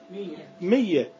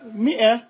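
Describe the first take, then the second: First: The glottal stop is eased into a y sound. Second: The word is said with a glottal stop.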